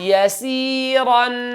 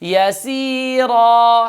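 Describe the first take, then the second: First: The word ends with an n sound. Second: The word ends with a long vowel, no n. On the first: The reading continues without stopping. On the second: The reading stops on this word.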